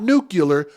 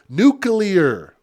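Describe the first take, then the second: First: It is said like nu-cu-lar. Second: It is said like nu-clee-ar. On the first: The speaker calls it wrong. "not nuclear" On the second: The speaker calls it right. "For those who don't pronounce the word right, it's nuclear"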